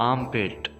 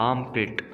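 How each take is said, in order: The two takes are said the same way.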